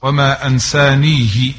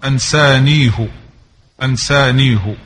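First: أنسانيه said as ansanihi; أنسانيه with kasra, Asbahani reading; kasra on the haa. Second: أنسانيه said as ansanihu; أنسانيه with damma, Hafs reading; damma on the haa. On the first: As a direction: end أنسانيه on -hi. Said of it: "فالأصبهاني يقرأها بالكسر". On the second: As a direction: end أنسانيه on -hu. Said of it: "وحفص يقرأها بالضم". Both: Shown as a demonstration.

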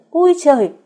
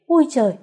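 First: Much louder, higher frightened shriek; panicked shriek. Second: Sharp, high alarmed yelp; startled cry. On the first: Chị Thắm panics as the teapot shatters, loud shriek. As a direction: let the fright burst out full. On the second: Chị Thắm jumps back from the falling teapot, startled cry. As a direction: cry out in sudden fright. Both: A narrator's reading. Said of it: "hốt hoảng kêu lên".

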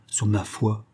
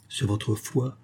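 First: "ma" stressed in "sur ma foi"; answering echo. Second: "sur votre foi" soft, rising at the end; probing question. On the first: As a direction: affirm it, weight on "ma". Answer echoing the challenge. (réponse posée, accent sur « ma ») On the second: Softer question in the challenge. (question à voix basse sur « votre foi ») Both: A narrator's reading.

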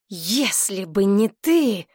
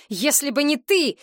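First: Slow, heavy repeat, ТЫ dragged out; bitter slow repeat. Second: High, sharp stress on ТЫ; angry cry. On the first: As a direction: let it sink, each word slow. (медленно, с горечью, «ты» протяжно) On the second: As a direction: hurl ТЫ at her, voice up high. (резкий выкрик, ударение на «ты») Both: A narrator's reading. Oleg repeats his accusation.

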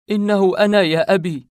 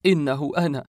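First: Loud, high, heartsick outcry; anguished cry. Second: Contained, aching first declaration; anguished. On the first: Narrator embracing his father, crying out in anguish. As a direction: cry out to be recognised, voice raised. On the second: Narrator embracing his father, restrained anguish. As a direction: say it heartsick, holding back the full cry. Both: A narrator's reading. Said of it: "احتضنته وأنا أقول ملتاع القلب".

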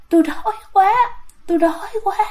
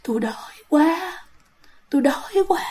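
First: High moan carried on the breath; groaning ghost. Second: Hungry ghost whispering breathily. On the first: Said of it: "mà trong cái tiếng thở đó". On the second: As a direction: breathe the words out like a starving spirit. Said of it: "xong rồi kêu". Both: Retold or imitated.

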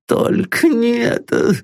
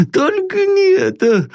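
First: High, pleading plea; begging. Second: Much higher, sobbing cry. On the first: Terrified master begs his servant, pleading. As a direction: beg in rising panic. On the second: Terrified master sobs his plea to his servant. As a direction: break into a sob on the plea. Old man breaking down. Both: Acted.

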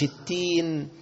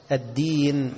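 First: "التين" with t in place of d; wrong letter. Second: "الدين" with a clear doubled d; correct dal. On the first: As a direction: drag out "التين" with a light t. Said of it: "مش". («التين» بالتاء بدل الدال) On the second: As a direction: stretch "الدين" on a firm dal. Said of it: "فيخليها تين". («الدين» بدال واضحة) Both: Shown as a demonstration.

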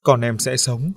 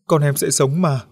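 First: Dazed repeating. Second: Higher, louder insistent repeat; cling to the words as a plea; desperate repeating. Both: A narrator's reading. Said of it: "miệng không ngừng lặp đi lặp lại".

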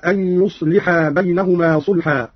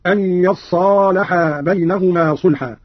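First: Said in the usual way. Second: يصالحا said "yassalaha", doubled sad and long a; slow reading with يصالحا as "yas-saa-la-haa"; fatha, doubled sad. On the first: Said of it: "قرأ قالون بفتح الياء". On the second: Shown as a demonstration. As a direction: open the ya with "a" and hold the sad in يصالحا. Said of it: "بفتح الياء وتشديد الصاد بعدها".

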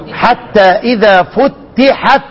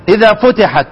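First: Slow recitation, doubled t in "فتحت". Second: Said in the usual way. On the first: Shown as a demonstration. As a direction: hold the ت of "فتحت" as a double consonant, fut-tihat. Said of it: "شدد لشام. إزاي أقرأها؟". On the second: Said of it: "شدد لشام".

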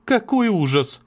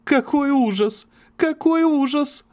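First: Much higher, louder cry of horror; exclaiming. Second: Slow, much higher, sobbing repeats; hysterical sobbing. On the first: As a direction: burst out in horror. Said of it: "она воскликнула". (воскликнуть в ужасе) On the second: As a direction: break down sobbing the words. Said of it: "истерически зарыдала, повторяя со всхлипами". (истерически рыдая) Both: Acted.

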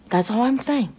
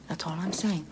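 First: Louder emphatic. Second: Hushed repeat. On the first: Creature insisting on her point to the listener, louder. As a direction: punch it out a bit louder, mock-insistent. Punchline, then hushed repeat. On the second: Creature repeating her point under her breath. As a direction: drop it lower and softer, almost to yourself. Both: Acted.

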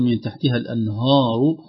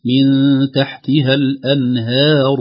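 First: "الأنهار" with a dark, backed "haa"; wrong heavy ha. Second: Slow, louder "الأنهار" with light fronted "hae"; correct thinned ha. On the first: Sheikh imitates a common error, heavy ha in "الأنهار". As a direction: thicken the ha of "الأنهار" toward the heavy ra. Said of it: "يفخم الهاء". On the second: Sheikh models the fix, "الأنهار" with light ha. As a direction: stretch a thin, light ha in "الأنهار". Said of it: "ينبغي أن نحرص على ترقيقها". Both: Shown as a demonstration.

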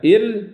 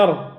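First: إر with a light, thinned r. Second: إر with a thick, velarized r; heavy ra. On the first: Teacher posing the wrong option, إر with thin ra. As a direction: let the i thin the r in إر. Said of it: "إر ولا إر". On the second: Teacher offering the right option, إر with heavy ra. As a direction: make the r full in إر. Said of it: "نقول إر". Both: Shown as a demonstration.

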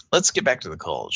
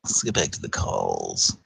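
First: Said in the usual way. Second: Much lower and softer mock radio voice; deep announcer voice. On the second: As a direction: drop into a low radio-host voice. Repeats line in put-on voice.

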